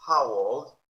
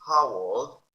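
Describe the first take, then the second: First: Put-on How old loud, rising at the end; loud questioning How old; loud model. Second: Put-on How old loud, rising; loud model. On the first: Teacher drilling class, loud rising question. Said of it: "model rise". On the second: Teacher drilling class, loud question. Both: Shown as a demonstration.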